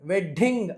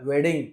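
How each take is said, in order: First: The middle d sound is doubled and held. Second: The middle d sound is short and single. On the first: The speaker calls it wrong. "అనకుండగా" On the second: The speaker calls it right. "అంటే సరిపోతుంది"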